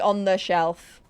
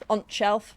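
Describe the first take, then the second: First: The article 'the' is said in full. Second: The article is cut to a short t sound. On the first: "I wouldn't say on the shelf" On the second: "It would be the t noise"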